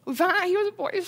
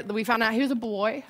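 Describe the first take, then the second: First: Real tearful strain, pitched much higher; choked up. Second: Said in the usual way. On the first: Real, not acted. Mother telling of her first baby's scan, choked up. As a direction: push the words out through rising tears, high and tight. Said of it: "I'm gonna get choked up". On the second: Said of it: "Sorry, I'm gonna get choked up".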